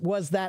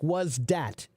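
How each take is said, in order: First: 'That' begins with a soft th sound. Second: 'That' begins with a hard d sound.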